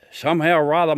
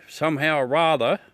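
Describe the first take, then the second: First: "somehow or rather" said louder, leaning on "rather"; emphatic repeat. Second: Said in the usual way. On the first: Shown as a demonstration. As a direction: punch "somehow or rather" harder on the second go.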